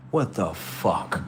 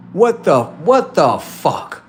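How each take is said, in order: First: Low, slow astonishment; quietly stunned, lowered voice; muted disbelief. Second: High, loud astonished outburst; incredulous raised cry; loud disbelief. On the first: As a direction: stretch it out under your breath. First reaction, then repeated louder. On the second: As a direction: exclaim it stunned, stretching the last words. Stunned reaction, escalating. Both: Acted.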